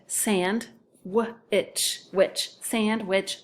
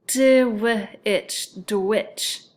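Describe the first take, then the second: First: "sand" then "witch" said as separate syllables, then blended into "sandwich"; right split. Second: "dwitch" said as a separate syllable, a bit louder; wrong split. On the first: Teacher shows the correct split, slowly. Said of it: "then it would be sand". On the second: Teacher demonstrates a bad split to second graders, stressed. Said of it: "doesn't sound quite as good". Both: Shown as a demonstration.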